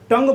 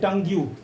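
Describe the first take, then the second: First: The word ends in a plain ng sound. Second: The word ends with an added yu sound. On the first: This is how the word is normally said. "टंग बोलते हैं" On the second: It follows the spelling to help remember it. "लेकिन उसको क्या बोल देते हैं?"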